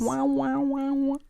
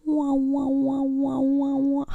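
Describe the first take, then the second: First: High wavering alien wow. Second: High, loud wavering alien warble. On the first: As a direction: warble like a cartoon alien. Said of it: "That's my alien noise". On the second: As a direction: belt the alien noise out. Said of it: "let me segue into it". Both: Pretend.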